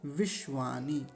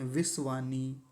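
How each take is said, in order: First: The middle consonant is a palatal 'sh' sound. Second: The middle consonant is a dental 's' sound. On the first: The speaker calls it right. "ऐसा नहीं, विश्वानी ऐसा बोलेंगे" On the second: The speaker calls it wrong. "ये दंत्य सकार बोल देते हैं"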